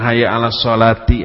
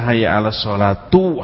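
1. Kata terakhir berakhiran vokal 'i'. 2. Kata terakhir berakhiran vokal 'u'. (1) "Orang harusnya hayya 'ala sholati" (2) "Itu salah"

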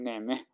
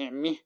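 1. الصوت بين 'a' و'i'. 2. الصوت كسرة كاملة 'i'. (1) "فتكون بين وبين بين هكذا" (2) "لو كسرنا قلنا نعمه مثلا كسرناها تماما"

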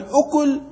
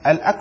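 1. الحركة الأولى هي u: al-ukul. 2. الحركة الأولى هي a: al-akl. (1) "وأما الأكل فإنه المأكول" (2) "الأكل مصدر"

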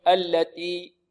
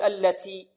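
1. تُنطق التاء بلا نفس. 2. في التاء صفير مبالغ فيه يشبه السين. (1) "بعض الطلاب يجرد التاء من الهمس فيقول" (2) "بعض الطلاب يبالغون في الهمس، يقول"

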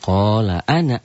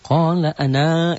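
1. Vokal akhir dari ana pendek. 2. Vokal akhir dari ana panjang.

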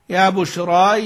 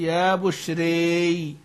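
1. الحركة الأخيرة 'aa' مفتوحة. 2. الحركة الأخيرة تميل بقوة نحو 'ee'. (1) "الفتح" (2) "الإمالة"

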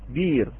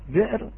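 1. حركة المد الطويلة "ee" تحل محل الهمزة. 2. الهمزة تغلق المقطع الأول.

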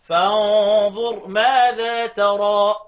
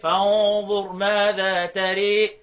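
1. الحركة الأخيرة هي a المفتوحة. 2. الحركة الأخيرة مائلة تماماً نحو e. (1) "وبقيت القراء عكس الضم الفتح وعكس الكسر الفتح" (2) "وطبعا فيها الإمالة لدوري أبي عمرو"

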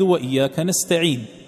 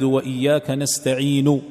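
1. ينتهي الصوت الأخير بلا حركة إطلاقاً. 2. ينتهي الصوت الأخير بضمة كاملة. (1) "وقفت عليها ساكنة بغير إشمام" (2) "هذا إذا نطقت بها وهي مضمومة"

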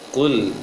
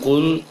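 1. Huruf L terakhir diucapkan dengan bibir tidak membulat. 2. Huruf L terakhir diucapkan dengan bibir membulat. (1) "tapi kul" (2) "jangan kul"

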